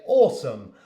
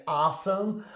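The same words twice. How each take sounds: First: Awesome with a long British aw, "aw-sum". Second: Awesome with a flat American a, like "assum". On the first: Teacher showing her own British awesome. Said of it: "I obviously pronounce it in a British accent". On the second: Teacher showing the American awesome. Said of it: "I don't say awesome, I say awesome". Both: Shown as a demonstration.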